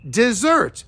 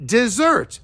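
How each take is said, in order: First: The stress is on the second syllable. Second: The stress is on the second syllable.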